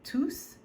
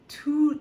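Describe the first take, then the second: First: The final S sound is pronounced. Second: The final S sound is silent. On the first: The word is a pronoun standing for the things. "since we're using it as a pronoun ... then we would pronounce the S" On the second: The word is an adjective describing a noun. "if we're using tous as an adjective meaning all of, um, then we would not pronounce the S"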